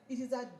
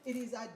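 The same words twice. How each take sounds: The two takes are said the same way.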